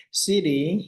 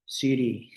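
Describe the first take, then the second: First: Siti said higher with a lightly put-on Brooklyn accent; joking Brooklyn accent. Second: Said in the usual way. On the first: Naming the story girl Siti in a joking Brooklyn accent. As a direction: toss the name off in a playful Brooklyn twang. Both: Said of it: "Kita Siti dengan aksen Brooklyn".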